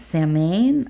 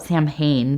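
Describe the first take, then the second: First: The H sound is left silent in the word. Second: The H sound is pronounced in the word. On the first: "maybe the H is silent" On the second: "I always call it Samhain"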